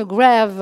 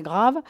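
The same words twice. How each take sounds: First: "Grave" pronounced the English way, like "grave" with an "ay"; English accent. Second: Said in the usual way. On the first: Real, not acted. Presenter slipping on the French film title, English accent on "Grave". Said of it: "je dis avec l'accent, euh, anglais". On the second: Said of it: "Grave, parce que c'est français".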